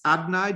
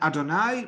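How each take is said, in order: First: The word is said with two syllables. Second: The word is said with three syllables. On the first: "which I'm going to pronounce Adnai just out of respect for the name" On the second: "Melody's written"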